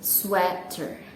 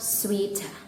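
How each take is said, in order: First: It uses the standard English vowel sounds. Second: It uses the Indonesian-style vowel sounds. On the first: The speaker calls it right. "how to pronounce it correctly" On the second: The speaker calls it wrong. "not sweater"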